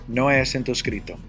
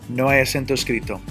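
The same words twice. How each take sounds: No difference in how they are said.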